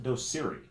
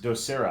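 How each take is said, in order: First: The name ends with an 'ee' sound. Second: The name ends with an 'ah' sound. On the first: The speaker calls it wrong. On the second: The speaker calls it right.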